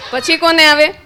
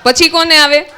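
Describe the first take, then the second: First: કોને stressed with a rising question tune. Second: પછી stressed, question said evenly. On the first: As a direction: ask again, hitting કોને and lifting the end. (કોને પર ભાર, અંતે સૂર ઊંચો) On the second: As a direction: lean on પછી and keep કોને light. (પછી પર ભાર મૂકીને પૂછો) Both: Shown as a demonstration.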